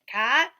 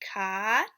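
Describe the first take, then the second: First: It is said faster in a cowboy drawl. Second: It is said slowly in a plain voice. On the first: "A little faster, and we're going to say it like a cowboy or cowgirl" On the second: "Read them with me"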